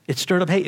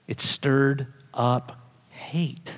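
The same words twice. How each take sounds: First: Said in the usual way. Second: Slow, breathy whispered line. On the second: Acted. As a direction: hush it almost to nothing, slowly. Preacher repeats line, whispered first.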